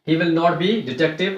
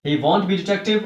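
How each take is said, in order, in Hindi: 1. 'will not' शब्द पूरे बोले जाते हैं। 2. 'will not' शब्द 'won't' में संक्षिप्त हो जाते हैं।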